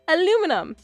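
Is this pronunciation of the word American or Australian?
American. The word is said with American pronunciation. "we say"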